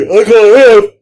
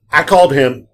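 First: A loud, high mock of the passenger's broken English; passenger's correction. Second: Said in the usual way. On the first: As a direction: puff it up like the customer did. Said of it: "Oh, excuse me".

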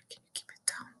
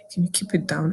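First: Barely voiced, much softer imitated husband; hushed whisper. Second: Said in the usual way. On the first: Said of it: "He was like". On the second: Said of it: "And my husband was like".

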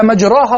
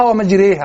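First: مجراها with an open long aa after the r; without imala. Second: ومجريها with the long aa tilted to ee; imala. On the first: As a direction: keep مجراها open, "majraaha". (نطق مجراها بالفتح دون إمالة) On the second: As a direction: tilt the vowel in ومجريها, "majreeha". (نطق ومجريها بالإمالة) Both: Shown as a demonstration. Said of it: "بين الإمالة وعدم الإمالة".

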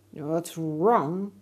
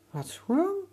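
First: Loud angry snap back. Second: High, curious question; curious boy. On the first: Alligator snaps back at the boy, loud and angry. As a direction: throw the question back in anger. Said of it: "snapped the alligator so loudly". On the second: Boy asks the sick alligator, high and curious. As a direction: ask with a boy's bright concern. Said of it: "Emir asked". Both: Acted.

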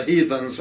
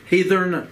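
First: Said in the usual way. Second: Heathen said as "heathern" with an R before the final n; Appalachian brogue: say heathen as "heathern", adding an R. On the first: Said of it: "as we say". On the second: Shown as a demonstration. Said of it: "You put a R in there".

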